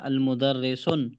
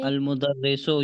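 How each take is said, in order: First: The word ends with an added n sound. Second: The word ends on a vowel without n. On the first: The speaker calls it wrong. "तो ये गलत है।" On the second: The speaker calls it right. "ये सही है।"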